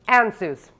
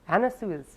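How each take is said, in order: First: It is said as two syllables, an-suz. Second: It is said as three syllables, an-na-suez. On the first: "I just say Ansuz" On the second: "they actually say to pronounce it Anna Suez"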